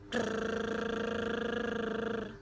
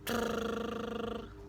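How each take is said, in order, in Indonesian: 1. Getaran bibir ditahan paling lama. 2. Getaran bibir ditahan sedikit lebih lama. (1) "lebih cepat lagi daripada yang set pertama dan yang set kedua. Lebih panjang maksud saya" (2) "Set yang kedua lebih panjang lagi daripada set yang pertama"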